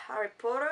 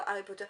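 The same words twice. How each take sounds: First: Put-on English pronunciation of the name; English accent. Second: Said in the usual way. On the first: Shown as a demonstration. Vlogger showing Harry Potter socks, English accent. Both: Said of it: "mon magnifique accent anglais".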